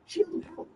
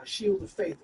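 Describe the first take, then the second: First: Very high, silly voice; high-pitched jokey announcement; playful spell nickname. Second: Said in the usual way. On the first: Acted. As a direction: pipe up with the pet name. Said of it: "or as I call it".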